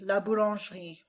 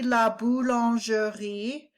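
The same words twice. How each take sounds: First: The middle E is dropped and silent. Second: The middle E is pronounced as a syllable. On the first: "but they drop that silent E"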